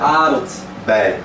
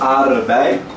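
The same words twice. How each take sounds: First: A clear d sound comes before 'bei'. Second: There is no d sound before 'bei'. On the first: The speaker calls it right. "mas o correto é aardbei" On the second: The speaker calls it wrong. "tem gente que fala aardbei"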